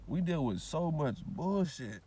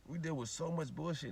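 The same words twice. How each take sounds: First: Very slow, every word weighted; slow heavy emphasis; slow emphatic. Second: Quieter, resigned repeat; soft tired echo. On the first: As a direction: drag it out to drive it home. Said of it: "repeated for emphasis". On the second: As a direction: let it sink in softly. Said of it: "repeated softer". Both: Real, not acted.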